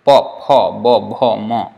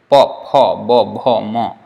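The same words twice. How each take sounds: First: The vowels are rounded 'o' sounds. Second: The same.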